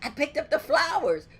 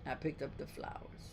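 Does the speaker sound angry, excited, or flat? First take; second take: excited; angry. First: It is said with excited energy. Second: It is said with a mad attitude.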